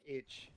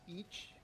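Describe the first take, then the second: First: The name has a short vowel, like 'itch'. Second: The name has a long vowel, like 'each'. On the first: The speaker calls it right. "supposedly it's more like itch" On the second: The speaker calls it wrong. "I always said uh, each because I thought that's how some of the league announcers used to say it"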